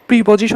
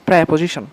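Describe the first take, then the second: First: The first syllable is said with an 'ee' vowel. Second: The first syllable is said with an 'e' vowel. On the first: The speaker calls it wrong. "আমরা অনেকে প্রেপোজিশনকে প্রিপোজিশন use করি" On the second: The speaker calls it right. "আসলে এটার উচ্চারণ হচ্ছে প্রেপোজিশন, প্রে প্রেপোজিশন এভাবে"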